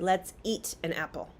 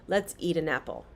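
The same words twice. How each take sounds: First: The T in 'eat' is a crisp, clear T. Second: The T in 'eat' softens into a D. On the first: "They are very clear on their usage of T" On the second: "But American English speakers"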